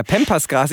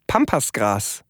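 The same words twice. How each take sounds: First: "Pampasgras" with "Pam" said as "pem"; "Pampasgras" with a fronted "eh" in the first syllable; English-style vowel. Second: "Pampasgras" with an open German "a" in "Pam"; "Pampasgras" starting with a plain "ah" vowel; German pronunciation. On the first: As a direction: say "Pampasgras" starting with an English short "a". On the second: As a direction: say "Pampasgras" as spelt, first syllable "pahm". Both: Shown as a demonstration. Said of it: "ich weiß gar nicht, wie es richtig heißt".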